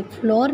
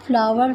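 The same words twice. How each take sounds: First: फ्लोर said like floor, one syllable; wrong pronunciation. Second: फ्लावर said like flower, two syllables; flour said right. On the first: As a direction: show the mistake, फ्लोर like floor. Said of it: "इसको हम फ्लोर नहीं पढ़ेंगे". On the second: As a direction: say फ्लावर as flow-er, not floor. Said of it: "इसको हम फ्लोर नहीं पढ़ेंगे, फ्लावर पढ़ेंगे". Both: Shown as a demonstration.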